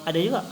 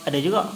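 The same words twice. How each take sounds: The two takes are said the same way.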